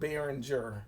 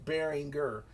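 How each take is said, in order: First: The middle consonant is a soft J sound. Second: The middle consonant is a hard G sound. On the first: The speaker calls it wrong. "changed the G to a J sound to call it Behringer" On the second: The speaker calls it right. "it's actually pronounced Behringer"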